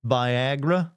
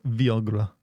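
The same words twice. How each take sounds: First: "Viagra" said slowly as vy-AG-ra; standard pronunciation. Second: "Viagra" said slowly as vee-AH-gra; alternative pronunciation. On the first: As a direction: offer "Viagra" slowly with a long i first. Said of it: "give me your opinion". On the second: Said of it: "you all know what sounds better". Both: Shown as a demonstration.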